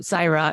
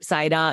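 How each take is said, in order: First: The R is a plain English R. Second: The R is half-rolled. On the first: An anglicized version that is acceptable. "I can often anglicize it for people who can't half roll the R" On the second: This is how the name is truly pronounced. "like the half roll"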